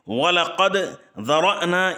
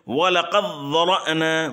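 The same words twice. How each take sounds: First: The d sound is clearly pronounced before z. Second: The d merges into a doubled z sound. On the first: "पहले" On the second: "जब इदगाम करेंगे"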